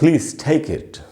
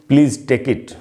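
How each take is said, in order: First: The t of take is breathy and aspirated. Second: The t of take is plain and unaspirated. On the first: The speaker calls it right. "तो कहना चाहिए" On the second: The speaker calls it wrong. "न कि"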